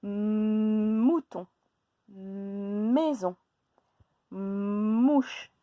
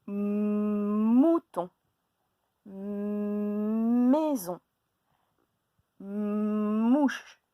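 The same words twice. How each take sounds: First: "mouton, maison, mouche" again with the m held; repeated stressed onsets. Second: "Mouton, maison, mouche" with drawn-out m; stressed onsets. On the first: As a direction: repeat each word and hold the m. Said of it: "Je répète". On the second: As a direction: stretch the m of each word. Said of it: "comment commencent-ils ces mots?". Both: Shown as a demonstration.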